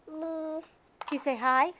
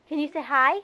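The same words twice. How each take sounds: First: "Can" alone, pause, then "you say hi?" lifted; spaced-out prompt. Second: Said in the usual way. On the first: Shown as a demonstration. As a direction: split it for the toddler to copy.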